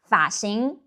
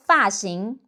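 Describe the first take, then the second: First: Taiwan-style 发型, third-tone 发. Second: 发型 with 发 falling. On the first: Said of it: "pronounced as a third tone". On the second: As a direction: drop the tone on 发 in 发型. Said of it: "pronounced as a falling tone". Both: Shown as a demonstration.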